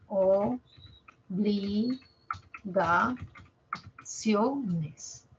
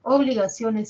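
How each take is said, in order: First: Obligaciones drawn out very slowly, syllable by syllable; slow syllable split. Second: Said in the usual way. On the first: Shown as a demonstration. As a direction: stretch obligaciones into separate syllables. (obligaciones muy despacio, por sílabas) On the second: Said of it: "sí, obligaciones".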